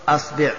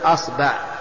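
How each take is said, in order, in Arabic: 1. الحركة بعد الباء هي i. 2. الحركة بعد الباء هي a. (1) "والكسر" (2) "الفتح"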